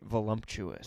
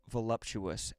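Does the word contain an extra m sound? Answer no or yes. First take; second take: yes; no. First: The word is said with an added m sound. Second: The word is said without an added m sound.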